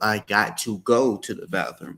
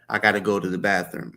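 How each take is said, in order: First: "Got to" is said as two separate words. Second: "Got to" is run together quickly as "gotta". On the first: "instead of" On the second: "may say certain words quick, and it may sound like"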